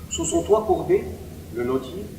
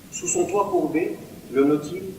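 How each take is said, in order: The two takes are said the same way.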